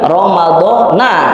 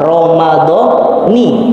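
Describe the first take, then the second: First: The word ends with an 'a' vowel. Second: The word ends with an 'i' vowel. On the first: "kadang kita sering" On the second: "Pokoknya kalau depannya kasroh"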